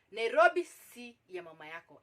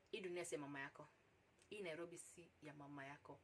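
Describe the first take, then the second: First: "Nairobi" hit loud at the start; emphatic repeat. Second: Low and very soft, resigned saying; quiet, stunned. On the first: Shown as a demonstration. Storyteller warning listeners about the city, emphatic with "Nairobi" punched. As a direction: hammer "Nairobi" home, louder, as a warning. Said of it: "I repeat again". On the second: Real, not acted. Storyteller left stunned by his proposition, quiet. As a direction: murmur it low, letting it sink in. Stunned realisation, then repeated louder.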